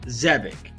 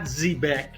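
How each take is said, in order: First: The final syllable sounds like 'ick'. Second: The final syllable sounds like 'eck'. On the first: The speaker calls it right. "It's called Zebic" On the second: The speaker calls it wrong. "not Zebek"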